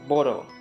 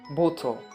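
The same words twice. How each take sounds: First: The middle consonant is a soft D-like flap. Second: The middle consonant is a crisp, clear T. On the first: It sounds American. "But American people, they say bottle" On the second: It sounds British. "it is pronounced as bottle"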